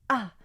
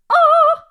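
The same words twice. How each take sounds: First: The vowel starts with a slight, gentle glottal onset. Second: The vowel starts with a harsh, aggressive glottal attack. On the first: The speaker calls it right. "a is actually a glottal sound. You know, it's like a ah" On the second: The speaker calls it wrong. "but also not ah. If you make it too harsh glottally"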